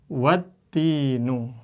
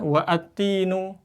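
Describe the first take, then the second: First: It joins straight from 'wa' into 'tinu'. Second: A separate vowel is said before 'tinu'. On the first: The speaker calls it right. "Tapi harus dibaca apa? Wattinu" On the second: The speaker calls it wrong. "Jangan dibaca wa atinu"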